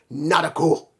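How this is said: The name is said with Japanese-style pronunciation.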